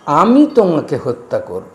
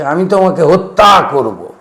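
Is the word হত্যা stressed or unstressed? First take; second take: unstressed; stressed. First: The word হত্যা carries no special stress. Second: Strong stress falls on the word হত্যা.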